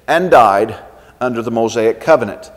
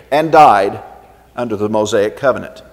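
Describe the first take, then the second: No difference in how they are said.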